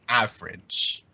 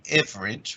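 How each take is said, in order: First: The vowel is an ah sound. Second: The vowel is not an ah sound. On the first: The speaker calls it right. "this is that ah sound" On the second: The speaker calls it wrong. "we don't say average"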